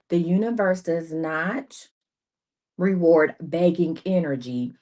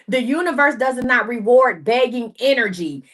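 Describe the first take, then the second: First: It is said calmly, without emotion. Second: It is said with strong emotion.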